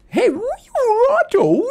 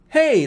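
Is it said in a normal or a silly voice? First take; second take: silly; normal. First: It is said in a weird, silly voice. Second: It is said in a normal voice.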